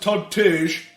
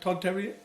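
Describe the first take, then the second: First: The surname sounds like 'Tage'. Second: The surname sounds like 'Terrier'. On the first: The speaker calls it wrong. "I pronounced it [name]" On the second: The speaker calls it right. "was actually it's uh, [name]"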